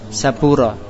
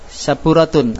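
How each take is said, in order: First: The word ends cut off with -ah ending. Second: The word ends with a full -atun ending. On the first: The reader stops on this word. "apa wakobnya?" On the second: The word is read on without stopping. "antum baca saburatun"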